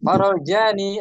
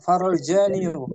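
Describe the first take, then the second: First: The last word ends in a plain long 'ee'. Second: The last word ends with an added 'yoo' sound. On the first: The final vowel stays hidden, so it is easy to say. The speaker calls it right. "Farol jani lebih ringan kan?" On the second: The final vowel is forced out, so it is heavy to say. The speaker calls it wrong. "Tapi sakil, berat"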